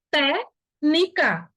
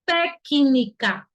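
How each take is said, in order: First: TÉCNICA very slow as "té... ni-ca"; wrong, C missing. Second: TÉCNICA very slow as "té-ki-ni-ca"; correct, C sounded. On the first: Teacher showing how it is not pronounced, C dropped. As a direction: leave out the C in TÉCNICA, syllables apart. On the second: Teacher correcting the mute-C reading, sounded out slowly. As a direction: sound the C as "ki" in TÉCNICA, syllables apart. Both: Shown as a demonstration. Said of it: "Essa palavra não se pronuncia assim".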